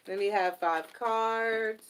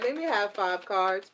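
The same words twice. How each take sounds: First: Slow repeat. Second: Said in the usual way. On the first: Real, not acted. Repeating her request to Spirit, slowed down. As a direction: let me have five cards drawn out slowly.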